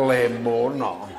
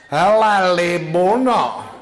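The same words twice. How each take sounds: First: Said in the usual way. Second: High, loud, slow call to a friend with a laugh; hammed-up gossip calling her pal; gossiping woman. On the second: One woman hails her friend Libuna, high and loud.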